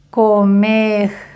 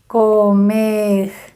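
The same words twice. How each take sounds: First: The final r sounds like a French r. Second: The same.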